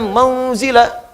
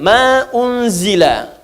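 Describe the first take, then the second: First: The words run together with no glottal stop. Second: A glottal stop separates the two words. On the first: The speaker calls it wrong. "Jadi nggak bisa dibaca mauzila" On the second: The speaker calls it right. "hamzahnya bunyi"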